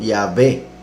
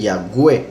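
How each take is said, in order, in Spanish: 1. La consonante del medio suena como una V. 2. La consonante del medio suena como una G. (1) "llamarlo Yahvé con V" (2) "pronunciarán la W como una G. Entonces dicen Yahweh, lo cual está mal"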